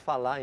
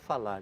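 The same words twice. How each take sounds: First: The final R sound is dropped. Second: The final R sound is pronounced.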